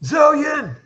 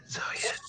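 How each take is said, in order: First: High-pitched call for a missing companion. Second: Hushed, voiceless call; whispered call. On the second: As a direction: whisper the name into the dark. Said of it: "I'm whispering along the bank". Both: Acted.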